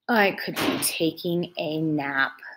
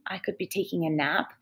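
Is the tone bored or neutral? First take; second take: bored; neutral. First: It is read in a bored tone. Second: It is read in a plain, neutral tone.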